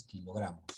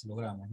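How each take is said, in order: First: Quiet "kilogramos" with the weight on gra; stress on GRA. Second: "kilogramos" stressed on the second syllable, lo. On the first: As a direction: softly lean on the GRA in "kilogramos". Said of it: "es kilogramos". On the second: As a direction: put the weight on LO in "kilogramos". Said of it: "no es kilogramos". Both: Shown as a demonstration.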